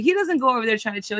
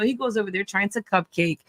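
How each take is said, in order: First: Chill hit as the wrong word; stress on chill. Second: Cupcake landed low and mocking; stress on cupcake. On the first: Co-host setting up a contrast, stress on chill. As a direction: lean on chill, quick and dismissive. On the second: Co-host correcting herself, mocking stress on cupcake. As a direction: punch cupcake, a softer scornful drop. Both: Shown as a demonstration.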